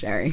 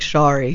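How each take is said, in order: First: The name is pronounced in a plain way. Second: The name is pronounced in a fancier way. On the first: This is how the name is really said. The speaker calls it right. "no, it's just Sherry" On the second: Others treat the name as more elegant than it is. The speaker calls it wrong. "people try to make me fancy"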